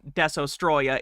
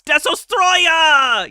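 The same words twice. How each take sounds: First: The name is said calmly and plainly. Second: The name is said loudly and dramatically. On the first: The speaker calls it wrong. "His name is not Desostroya" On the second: The speaker calls it right. "you have to say it like that. It's the law"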